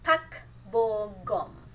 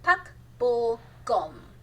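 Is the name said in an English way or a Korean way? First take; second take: Korean; Korean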